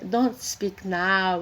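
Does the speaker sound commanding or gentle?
gentle. It is said in a softer, gentler tone. It is a more polite request. "com mais suave"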